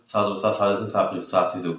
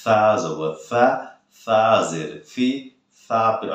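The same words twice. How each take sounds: First: Rattled-off সা জবর সা drill; hurried. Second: Slow, drawn-out সা জবর সা, সা জের সি; taking time. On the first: Teacher showing what not to do, hurried gabbled drill. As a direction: rush সা সি সু with the syllables running together. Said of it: "তাড়াহুড়ো করলে কিন্তু হবে না". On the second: Teacher showing students to take time, slow drawn-out spelling drill. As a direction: stretch each সা out unhurriedly. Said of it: "সময় নিয়ে পড়তে হবে". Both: Shown as a demonstration.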